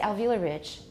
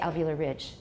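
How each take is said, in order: First: The stress falls on the first word. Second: The stress falls on the second word. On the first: It contrasts with another kind of ridge. The speaker calls it wrong. "we don't say alveolar ridge because there's no other kind of ridge" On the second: It is a regular phrase with no contrast. The speaker calls it right. "So we say alveolar ridge"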